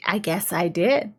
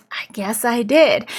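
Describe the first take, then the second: First: "I guess I did" soft, rising on DID; tentative credit-taking. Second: "I guess I did" firmer, falling on DID; surer credit-taking. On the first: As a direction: say "I guess I did" quietly, ending DID on an unsure upturn. Squire tentatively takes the credit. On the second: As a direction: say "I guess I did" at normal volume, landing DID on a fall. Squire repeats it with more assurance. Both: Retold or imitated.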